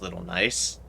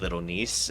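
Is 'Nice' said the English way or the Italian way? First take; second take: English; Italian. First: Nice is said like the plain English word. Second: Nice is said with a foreign, Italian-style vowel. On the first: "It might be just Little Nice" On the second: "I think I'm pronouncing it the usual Italian way"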